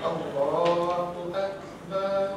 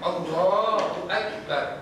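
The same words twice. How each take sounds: First: The final syllable is drawn out long. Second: The final syllable is short and stopped. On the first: The speaker calls it wrong. "tapi jadi salah kalau kita" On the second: The speaker calls it right. "Yang paling tepat matikan"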